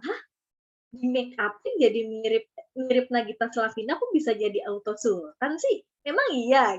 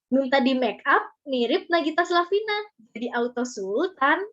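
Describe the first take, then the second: First: Puzzled questioning, rising on sih; curious disbelief. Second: Said in the usual way. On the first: Shown as a demonstration. Teacher shows how to hook viewers, curious rising questions. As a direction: sound intrigued so viewers wonder. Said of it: "Pakai intonasinya, bikin orang jadi penasaran". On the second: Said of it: "Ya akan biasa-biasa aja juga".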